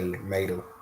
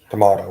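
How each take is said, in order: First: Tomato is said with a country pronunciation. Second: Tomato is said with a city pronunciation. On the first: "we say tomato" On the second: "we don't say"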